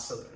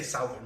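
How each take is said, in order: First: Southern with a short "uh" vowel; standard pronunciation. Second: Southern with "ow" as in south; own non-Southern pronunciation. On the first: Contrasting the usual Southern with their own, short "uh". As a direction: say Southern with first syllable "suth". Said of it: "I say Southern, not Southern". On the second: Explaining their own way of saying Southern, "ow" vowel. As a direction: say Southern starting like the word south. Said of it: "not Southern". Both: Shown as a demonstration.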